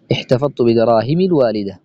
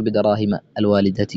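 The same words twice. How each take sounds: First: بدراهم said with kasra, bidarahimi; correct kasra ending. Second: بدراهم said with a long fatha, bidarahimaa; wrong fatha ending. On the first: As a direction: end بدراهم on a short i, the right form. (بدراهمِ بكسر الميم) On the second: (بدراهمَ بفتح الميم خطأً) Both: Shown as a demonstration. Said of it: "ولا تقل".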